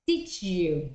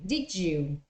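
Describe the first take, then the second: No difference in how they are said.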